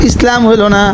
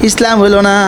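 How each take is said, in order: No difference in how they are said.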